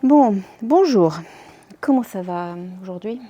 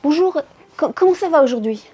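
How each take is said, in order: First: It sounds tired and exasperated. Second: It sounds rushed and hurried.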